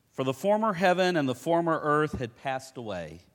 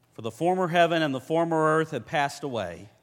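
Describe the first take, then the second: The two takes are said the same way.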